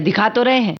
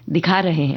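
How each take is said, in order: First: It is said curtly and impatiently. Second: It is said warmly and lovingly.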